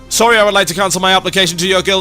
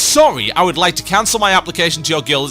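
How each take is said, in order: First: It is read as one breathless, unbroken run. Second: It is read plainly with normal pauses.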